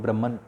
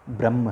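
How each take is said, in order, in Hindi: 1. शब्द 'n' ध्वनि पर खत्म होता है। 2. शब्द 'n' ध्वनि के बिना खत्म होता है। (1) "आप इंग्लिश में अगर लेक्चर्स देखेंगे हिंदुइज्म पे तो आपको ब्रह्मन शब्द मिलेगा" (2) "उसका सही प्रोनाउंसिएशन ब्रह्म है"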